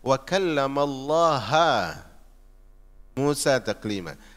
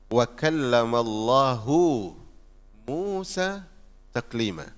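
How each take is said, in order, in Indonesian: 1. Nama itu diakhiri dengan vokal 'a'. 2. Nama itu diakhiri dengan vokal 'u'. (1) "sebagian Mu'tazilah membaca" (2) "Ayat yang benarnya, perhatikan ya bunyinya"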